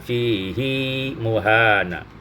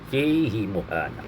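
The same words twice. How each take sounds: First: The vowel after the h is lengthened. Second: The vowel after the h is kept short. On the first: "riwayat Hafaz ada silahnya" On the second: "tanpa dipanjangkan hi"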